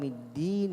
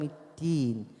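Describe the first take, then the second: First: The first consonant is a voiced, tense d. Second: The first consonant sounds close to t. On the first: The intended meaning is kept. The speaker calls it right. "بدل مالك يوم الدين" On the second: The meaning of the word changes. The speaker calls it wrong. "يقرأ قريب إلى التاء"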